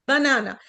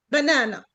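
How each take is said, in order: Both takes have the same delivery.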